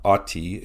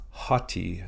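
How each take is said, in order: First: "aughty" with no H at the front; "aughty", the H left off; no rough breathing. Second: "haughty" with a clear H first; "haughty", slow, H sounded at the start; rough breathing. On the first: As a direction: start "aughty" straight on the vowel. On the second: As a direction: breathe an H onto the front of "haughty". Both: Shown as a demonstration. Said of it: "You add a rough breathing or an H sound".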